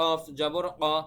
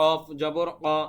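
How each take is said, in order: No difference in how they are said.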